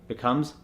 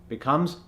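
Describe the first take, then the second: No difference in how they are said.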